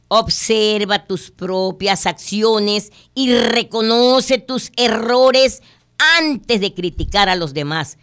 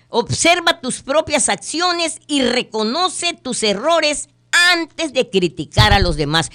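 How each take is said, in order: First: Very slow, deliberate reading of the moral; moral stated slowly. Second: Emphatic repeat. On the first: Host reading the fable's moral slowly. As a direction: weigh each word. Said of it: "La moraleja". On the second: Host repeating the moral to listeners, emphatic. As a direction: press it home again. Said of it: "Es cierto". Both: Shown as a demonstration.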